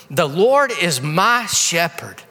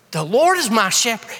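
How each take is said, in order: First: Reading the verse slowly, stress on Lord; slow scripture reading. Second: Said in the usual way. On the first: Shown as a demonstration. Preacher reads the psalm line to the congregation, slow and weighty. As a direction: Lord drawn out slowly and leaned on.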